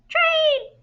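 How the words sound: It is said in a tiny, high, squeaky voice. "in a mouse voice"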